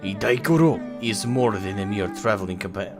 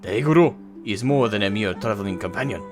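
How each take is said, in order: First: It is read with a Russian-like accent. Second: It is read in a plain accent.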